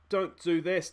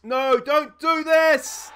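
First: Said in the usual way. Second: Much higher and louder, slow desperate yell; begging the players to stop; yelling at screen. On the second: Real, not acted. Manager pleading at his team on screen: desperate yell. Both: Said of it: "sitting here yelling at the screen".

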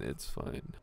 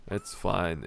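First: Whispered it's fine to self. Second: Said in the usual way. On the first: Real, not acted. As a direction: breathe "it's fine" unvoiced.

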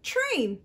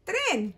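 First: Train with a full English tr; English Train said for learners. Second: Tren with a tapped Spanish r. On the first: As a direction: contrast Train with Tren. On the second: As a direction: model Tren for kids. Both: Shown as a demonstration. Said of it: "We say tren".

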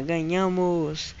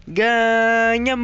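First: Slow, stretched "we won" at normal volume; easy, lingering victory call; drawn-out celebration. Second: Long, loud, high victory yell; triumphant shout. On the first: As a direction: draw the word out without shouting. Repeats the win after cheering. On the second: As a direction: stretch the word out in a winning shout. Celebrates winning the game. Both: Real, not acted.

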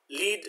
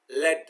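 First: "lead" with a long ee, the verb; isolated model word "lead", long-vowelled as in leadership; pronounced LEED. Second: "lead" with a short e, rhyming with bed; isolated model word "lead", short-vowelled like "led"; pronounced LED. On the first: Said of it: "which means to lead". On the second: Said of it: "it is pronounced as lead". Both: Shown as a demonstration.

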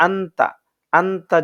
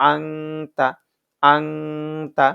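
First: আন্তা short, with a plain n; incorrect clear n. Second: আংতা slowly, with a long ng hum before তা; correct nasal ng. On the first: Teacher showing the mistake, আন্তা with plain unheld n. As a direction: say আন্তা with no held nasal. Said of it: "তাহলে উচ্চারণটা ভুল হবে". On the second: Teacher demonstrating correct আংতা, long nasal hum. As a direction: linger through the nose in আংতা. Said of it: "এখানে পড়তে হবে". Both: Shown as a demonstration.

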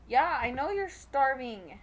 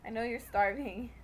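First: "starving" said oddly, hissing the S; "starving" stretched with a hissed S; weird starving. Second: Said in the usual way. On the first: Real, not acted. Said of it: "I said that really weird". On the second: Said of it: "I, like, emphasize the friggin' S".

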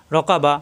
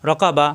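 Both takes have the same delivery.

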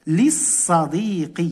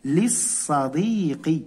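First: للصديق drawn out, li-s-sa-dii-qi, shadda on the s; slow model word. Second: للصديق stretched, li-s-sa-dii-qi; slow model word. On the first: Teacher modelling the word for pupils, slow and clear. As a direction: say للصديق slowly doubling the s. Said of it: "تصبح". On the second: Teacher repeating the form to pupils, slow. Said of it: "لاحظوا تصبح". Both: Shown as a demonstration.

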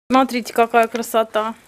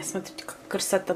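First: Said in the usual way. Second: Softly whispered admiration. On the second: Real, not acted. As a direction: whisper it to the camera. Showing food to camera.

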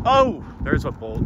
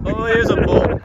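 First: Rising excitement at a bolt; a bit higher, caught by surprise; first glimpse of lightning, eager; excited. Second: Much higher, louder thrilled cry; excited shout. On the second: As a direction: yell it out, thrilled by the strike. Spots lightning bolt. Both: Real, not acted.

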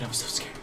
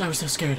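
First: Breathy whisper, no voice; hushed scared whisper. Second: Said in the usual way. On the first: Shown as a demonstration. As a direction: whisper it like a frightened child. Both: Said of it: "repeated take whispered".

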